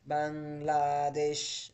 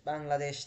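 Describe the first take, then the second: First: Bangladesh stretched very slowly, syllable by syllable; slow teacher emphasis on Bangladesh; drawn out. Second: Said in the usual way. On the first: Shown as a demonstration. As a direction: hold out Bangladesh so students catch it. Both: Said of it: "teacher repeats the answer word".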